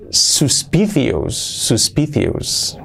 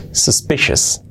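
First: Slow "Suspicious" as sus-PI-thius; wrong Spanish reading. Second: "Suspicious" as sus-PI-shes; correct pronunciation. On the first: Teacher reads out the spelling: "Suspicious" as slow sus-PI-thius. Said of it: "la palabra suspicious, no". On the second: Teacher models for learners: "Suspicious" with a sh. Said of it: "Así es, suspicious". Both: Shown as a demonstration.

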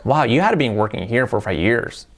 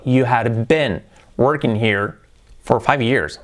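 First: Said in the usual way. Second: Slow, careful teacher model; slow model sentence. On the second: Shown as a demonstration. Teacher models the past sentence slowly for students. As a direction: say each word slowly for learners.

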